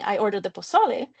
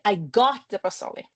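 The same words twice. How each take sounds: First: Said in the usual way. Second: "got" stressed, "pozole" left unaccented; stress on the verb. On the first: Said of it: "Instead of saying". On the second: Shown as a demonstration. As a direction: punch "got" and let "pozole" fall flat. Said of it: "I deliberately stressed the wrong word".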